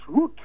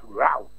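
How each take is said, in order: First: The vowel sounds like the one in boot. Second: The vowel sounds like the one in out. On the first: The speaker calls it right. "The word is root" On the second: The speaker calls it wrong. "not route"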